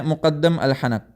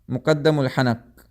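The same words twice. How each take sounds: First: Said in the usual way. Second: "مقدم الحنق" spelled out slowly, every sound clear; slow careful pronunciation. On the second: Shown as a demonstration. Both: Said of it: "اس surface کو کہتے ہیں".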